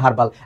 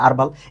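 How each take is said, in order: First: The word begins with a clear h sound. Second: The word begins with a vowel, no h sound. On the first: "সবাই জানে এটা হার্বাল" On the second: "ইউএস এর উচ্চারণ"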